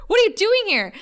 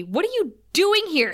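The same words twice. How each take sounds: First: High, loud mock exclaim. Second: A mock stern snap, pitched up; retelling Buffy's line with a stern edge. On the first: Buffy finding a stranger in her room, loud mock exclaim. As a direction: fling it out, hammed-up shock. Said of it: "She doesn't say Harriet". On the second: Buffy confronting the girl in her room, mock stern. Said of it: "And Buffy says sternly".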